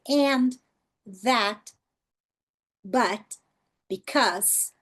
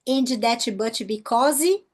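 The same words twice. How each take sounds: First: It is said with a natural, native-like English accent. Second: It is said with a heavy Brazilian Portuguese accent.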